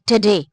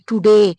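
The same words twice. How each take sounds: First: ٹوڈے with schwa, tuh-day; weak first vowel in ٹوڈے; correct way. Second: ٹوڈے with full oo, too-day; ٹوڈے said tuday with hard retroflex; Pakistani-style ٹوڈے; wrong Pakistani way. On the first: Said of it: "تو یہ ٹوڈے نہیں ہے". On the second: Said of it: "ہم پاکستانی لوگ کہتے ہیں". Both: Shown as a demonstration.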